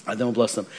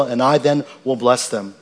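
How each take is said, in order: First: Soft, lower echo of the verse; quiet repeat. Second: Said in the usual way. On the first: Shown as a demonstration. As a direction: let the phrase settle quietly, lower. Pastor repeats scripture phrase softly.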